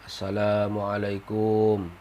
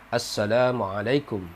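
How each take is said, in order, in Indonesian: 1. Suku kata terakhir 'kum' diucapkan panjang. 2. Suku kata terakhir 'kum' diucapkan pendek. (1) "itu salah" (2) "Kumnya itu pendek"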